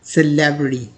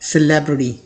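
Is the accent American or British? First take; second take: American; American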